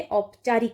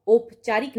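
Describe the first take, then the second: First: औपचारिक said slowly with an open au at the start; teacher giving the right form, औपचारिक with au; correct vowel. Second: औपचारिक said with a plain o at the start; teacher showing the wrong form, औपचारिक with o; wrong vowel. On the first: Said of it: "औपचारिक होता है". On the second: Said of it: "औपचारिक नहीं होता है". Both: Shown as a demonstration.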